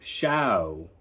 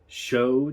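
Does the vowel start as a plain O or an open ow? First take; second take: open ow; plain O. First: The vowel starts open and glides like ow. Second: The vowel is a plain O sound. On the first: "from O to ow" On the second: "O as in show"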